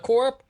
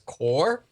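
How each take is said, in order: First: The word ends with a clear p sound. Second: The word ends without any p sound. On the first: "pronouncing that as like Umbrella Corp" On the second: "or as Core"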